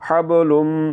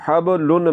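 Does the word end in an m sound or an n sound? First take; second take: m sound; n sound. First: It ends in a long, nasal m sound. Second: It ends in a plain, short n sound. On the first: The speaker calls it right. "आवाज़ को आपने नाक में ले जाकर थोड़ा सा लंबा करना है" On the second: The speaker calls it wrong. "तो हबलुन नहीं पढ़ना"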